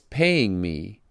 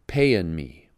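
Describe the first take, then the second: First: Paying ends with a full ng sound. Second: Paying ends with a shortened n sound. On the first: "When Atticus says paying me" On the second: "he pronounces it payin' me"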